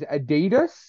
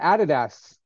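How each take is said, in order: First: It is said the standard American way. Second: It is said the usual Australian way. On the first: The speaker calls it right. "I believe the correct pronunciation is Adidas" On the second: The speaker calls it wrong. "we pronounce it Adidas"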